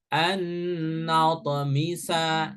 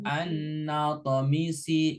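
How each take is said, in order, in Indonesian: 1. Vokal akhirnya adalah bunyi 'a'. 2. Vokal akhirnya adalah bunyi 'i'. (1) "harokat terakhirnya fathah" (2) "dibaca kasroh"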